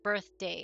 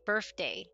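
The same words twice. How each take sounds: First: The 'th' sound is clearly pronounced. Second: The 'th' sound is replaced by another sound. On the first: It is the standard pronunciation. The speaker calls it right. "instead of birthday" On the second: It imitates a non-native speaker's pronunciation. The speaker calls it wrong. "my mom say birthday"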